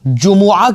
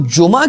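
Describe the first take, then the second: First: The word is said fully, with three syllables. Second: The word is said short, with two syllables. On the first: The speaker calls it right. "सही जो इसका pronunciation है ना वो जुमुआ है" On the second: The speaker calls it wrong. "मैं उसको गलत पढ़ूंगा"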